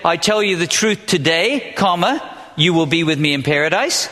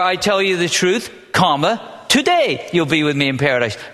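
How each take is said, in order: First: The break comes right after 'today'. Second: The break comes right before 'today'.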